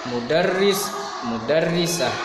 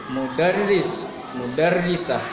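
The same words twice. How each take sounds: Both takes have the same delivery.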